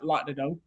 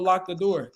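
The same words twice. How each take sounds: First: Atlanta accent with word endings dropped off. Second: Standard accent with word endings fully pronounced. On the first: "They be like" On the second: "they won't say"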